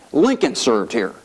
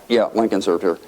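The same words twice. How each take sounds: First: Slow, marvelling at LINCOLN; retold wonder, savour the name slowly; Sonny in awe. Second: Low, unimpressed echo; blowing him off. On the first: Congressman showing his colleague the chamber, awed. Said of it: "he was just in awe of the institution". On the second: Retold or imitated. Sleepy congressman answering his chatty colleague, dismissive. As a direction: humour him, barely interested. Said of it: "I'm just blowing him off".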